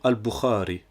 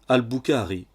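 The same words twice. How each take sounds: First: The middle consonant is a throaty, scraped kh. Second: The middle consonant is a plain hard K. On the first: The speaker calls it right. "pour dire Al-Bukhari" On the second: The speaker calls it wrong. "ou encore à prononcer Al-Bukhari"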